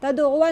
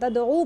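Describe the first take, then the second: First: The word ends with an added final 'a' sound. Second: The word ends on the 'oo' vowel, nothing added. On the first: The speaker calls it wrong. "तदउआ नहीं पढ़ते हम" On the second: The speaker calls it right. "तदऊ पढ़ते"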